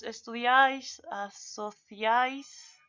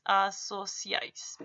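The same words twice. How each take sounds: First: "asociáis" in a Spain accent, with a lisped theta for the c; Castilian "asociáis" said very slowly with a rising end; Spain Spanish. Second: "asociáis" said with an s sound, a-so-siáis; "asociáis" pronounced with s and no theta; plain Latin American. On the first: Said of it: "la pronunciación es diferente". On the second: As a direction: read "asociáis" slowly with the s of the Americas. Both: Shown as a demonstration.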